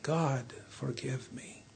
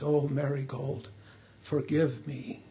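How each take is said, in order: First: A broken, near-breathless plea, much softer; sobbing prayer. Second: A soft, understated sob for his daughter; a grieving king, lightly broken; sobbing. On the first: King begging God's forgiveness, fading to a faint sob. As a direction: let the plea fade almost to nothing. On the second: King holding his restored daughter, softly sobbing. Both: A narrator's reading. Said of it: "and sobbed".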